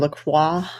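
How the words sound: The name is said with a French pronunciation.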